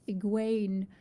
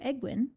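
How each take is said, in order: First: The last syllable sounds like 'Wayne'. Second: The last syllable sounds like 'win'. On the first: The speaker calls it right. "I need to think Wayne, not egg" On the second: The speaker calls it wrong. "I'm gonna say her name so wrong"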